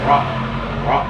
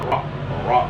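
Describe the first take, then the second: The two takes are said the same way.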